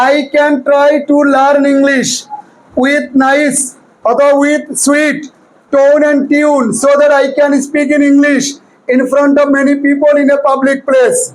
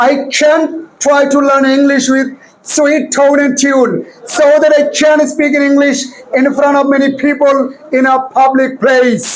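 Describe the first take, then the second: First: "I can try to learn English" read very slowly in plain Bengali-accented English; without the rules. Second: "I can try to learn English" read very slowly with a British-style accent; with the rules. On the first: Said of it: "ষোলোটা সূত্র ব্যবহার না করি তাহলে কেমন হবে দেখো". (নিয়ম ছাড়া ধীর, সাধারণ উচ্চারণে "English") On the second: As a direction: stretch "public place" in a careful British way. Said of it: "এবার ষোলোটা সূত্র ব্যবহার করে পড়ি". (ষোলোটা নিয়ম মেনে ধীর British ধাঁচে "public place") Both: Shown as a demonstration.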